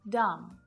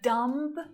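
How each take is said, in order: First: The B sound is left out entirely. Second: The B sound is clearly pronounced. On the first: The speaker calls it right. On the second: The speaker calls it wrong.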